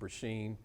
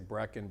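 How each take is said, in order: First: The name is said with a middle 'sh' sound. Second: The name is said as two syllables, Brecken. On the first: "They say" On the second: "People butcher my name all the time. They say Brecken"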